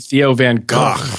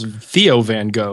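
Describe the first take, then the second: First: The name Gogh is said the Dutch way. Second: The name Gogh is said the anglicized way. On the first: The speaker calls it right. "clearly Theo Van Gogh" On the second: The speaker calls it wrong. "people mispronounce Theo Van Gogh"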